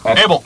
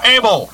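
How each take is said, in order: First: Abel said with a rising question tune. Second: Abel said with a firm falling tune; Abel stressed falling. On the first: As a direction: Abel asked back, rising. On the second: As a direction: Abel spelled out firmly, falling. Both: Shown as a demonstration.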